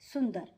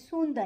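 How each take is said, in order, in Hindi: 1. पहला स्वर छोटा u है। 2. पहला स्वर लंबा oo है।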